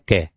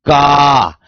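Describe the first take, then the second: First: The syllable is said with ordinary force. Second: The syllable is said with extra force. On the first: "सामान्य रूप से पढ़ सकते हैं" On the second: "इससे अधिक इस पर जोर दूंगा"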